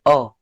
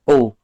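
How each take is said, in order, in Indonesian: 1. Vokal itu diucapkan dengan bibir tidak membulat. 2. Vokal itu diucapkan dengan bibir membulat. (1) "tidak kerucut" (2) "bunyinya seperti lebih kerucut"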